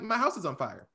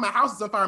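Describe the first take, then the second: First: It is said casually, without urgency. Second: It is said in an urgent, panicked way.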